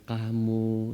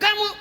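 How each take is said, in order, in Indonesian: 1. Kata itu diucapkan dengan suara pelan. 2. Kata itu diucapkan dengan suara keras. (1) "nah mestinya gitu kan" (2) "Begitu mulai kamu, oh, oh ya, udah langsung ada suara alarm diturunkan"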